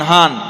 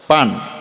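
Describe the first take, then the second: First: It is said Noakhali-style, beginning with h. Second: It is said standard-style, beginning with p.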